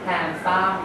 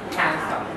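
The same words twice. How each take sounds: First: The stress is on the last syllable. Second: The stress is on the first syllable.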